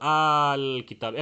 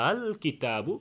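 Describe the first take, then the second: First: The second hamza becomes a lengthened long vowel. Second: The second hamza is pronounced softly, between both. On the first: The speaker calls it wrong. "আলিফের মতো আল কিতাব এক আলিফ মদ করেও না" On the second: The speaker calls it right. "প্রথমটা শক্ত, দ্বিতীয়টা হালকা"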